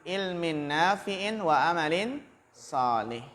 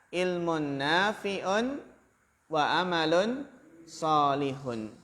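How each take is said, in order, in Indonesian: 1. Kata bendanya berakhir dengan bunyi vokal -in. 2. Kata bendanya berakhir dengan bunyi vokal -un. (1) "Atau dibaca ilmin itu sebagai ataf bayan" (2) "Kalau dibaca ilmun"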